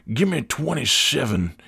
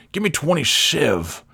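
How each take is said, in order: First: Put-on customer, softer, "twenty-seven" said in full. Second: Put-on customer, "twenty-seven" ending as "twenty-sev"; "seven" cut to "sev". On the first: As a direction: order "twenty-seven" as the customer, both syllables of seven. Customer says full number. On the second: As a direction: drop the last syllable of "twenty-seven".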